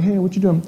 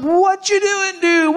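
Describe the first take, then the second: First: Said in the usual way. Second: High-pitched mock yell; pitched-up, hammed shout to a stranger. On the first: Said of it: "kinda walking next to the chariot". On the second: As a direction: holler it from a distance. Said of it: "So he's yelling".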